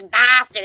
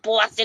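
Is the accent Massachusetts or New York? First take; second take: Massachusetts; New York. First: It is said in a Massachusetts accent. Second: It is said in a New York accent. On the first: The speaker calls it right. "a Massachusetts woman" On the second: The speaker calls it wrong. "like I have a New York accent"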